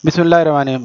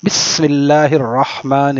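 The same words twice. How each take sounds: First: The h in Rahman is weak or barely heard. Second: The h in Rahman is clearly and strongly voiced. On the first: The speaker calls it wrong. "ہمارے یہاں اہتمام نہیں ہے" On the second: The speaker calls it right. "ہا کے ساتھ، یہ ہے صحیح بسم اللہ"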